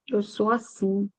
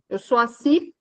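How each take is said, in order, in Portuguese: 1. É dito de forma suave e resignada, com certa decepção. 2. É dito de forma firme e desafiadora, encerrando o assunto. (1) "mas se falando assim, é, eu sou assim. A mesma frase com uma forma diferente" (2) "antes era um mecanismo de defesa, que falava assim, ponto"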